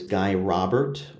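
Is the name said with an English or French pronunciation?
English. The name is said with English sounds. The speaker calls it wrong.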